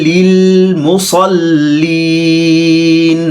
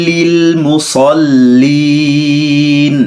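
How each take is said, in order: No difference in how they are said.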